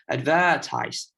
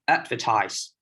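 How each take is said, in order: First: The stress is moved to another syllable. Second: The stress falls on the usual syllable. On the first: The speaker calls it wrong. "if I change the stress slight a little bit" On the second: The speaker calls it right. "I will try to say one word in different stress"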